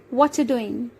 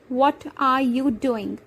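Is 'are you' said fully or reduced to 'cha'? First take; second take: reduced; fully. First: 'Are you' becomes 'cha' and the final g drops. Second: 'Are you' is said in full, with a final g. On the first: "contracted and reduced to cha" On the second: "How can we reduce the question"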